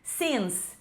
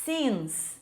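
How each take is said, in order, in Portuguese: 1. A vogal tem som como a vogal em 'it'. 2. A vogal tem som como a vogal em 'it'.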